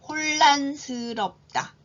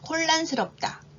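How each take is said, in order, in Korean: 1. 이 단어는 느리게 발음돼요. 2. 이 단어는 보통 속도로 발음돼요. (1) "천천히 두 번 읽을게요" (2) "이번에는 보통 속도로 해볼까요?"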